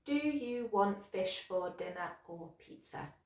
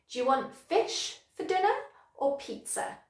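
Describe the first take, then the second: First: Every word of "Do you want fish for dinner or pizza" given equal weight, softer; robotic even stress from "Do" to "pizza"; without sentence stress. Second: "fish", "dinner" and "pizza" stressed, "Do you want" run together; higher-pitched, punching "fish", "dinner", "pizza"; natural sentence stress. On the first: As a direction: say each word separately, none standing out. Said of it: "say it without the sentence stress". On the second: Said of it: "I would stress fish, dinner, pizza". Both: Shown as a demonstration.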